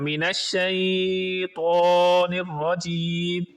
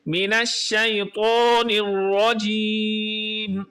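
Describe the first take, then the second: First: The vowel in 'shai' is drawn out long. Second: The vowel in 'shai' is kept short. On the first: The speaker calls it wrong. "ऐसे नहीं पढ़ना" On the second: The speaker calls it right. "तो कैसे पढ़ेंगे?"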